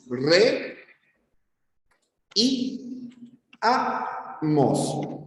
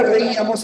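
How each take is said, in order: First: "Re y amos" broken apart, long pauses between "Re", "y" and "amos"; split into syllables. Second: Said in the usual way. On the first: Shown as a demonstration. Teacher showing students the two hiatuses, "Re y amos" split apart. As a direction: say "Re... y... amos" in separate pieces, the "y" pitched up. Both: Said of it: "en la palabra reíamos es así".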